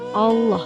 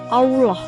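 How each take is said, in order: First: The L is thick and heavy. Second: The L is light and thin. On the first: The speaker calls it right. "sesuai dengan kaidah lam tafkhim ... Harus seperti itu" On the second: The speaker calls it wrong. "Apabila Anda masih membaca lafaz Allah itu dengan seperti ini"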